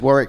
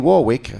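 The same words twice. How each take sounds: First: The second W is silent. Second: The second W is pronounced. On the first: The speaker calls it right. "you don't pronounce the second W in Warwick" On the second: The speaker calls it wrong. "they call me Warwick"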